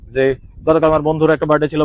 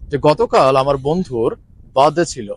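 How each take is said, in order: First: It is spoken fast and rushed, without pauses. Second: It is spoken calmly and slowly, with pauses. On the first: The speaker calls it wrong. "আমরা এইভাবে কথা বলি না" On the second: The speaker calls it right. "আমরা normally সুন্দর করে বলি"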